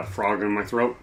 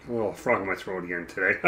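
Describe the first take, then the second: First: Chuckling through the words; amused at own joke; laughing. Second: Said in the usual way. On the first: Real, not acted. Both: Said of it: "I'm funny".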